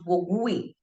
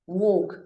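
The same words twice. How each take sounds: First: The u is sounded after the g. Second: The u is silent after the g. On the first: The speaker calls it wrong. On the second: The speaker calls it right.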